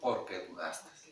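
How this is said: It is said as a falling statement.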